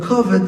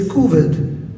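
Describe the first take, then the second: First: It is said in a Lubavitcher accent. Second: It is said in a Polish Jewish accent.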